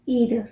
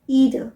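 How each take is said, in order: First: It is said with an American pronunciation. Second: It is said with an American pronunciation.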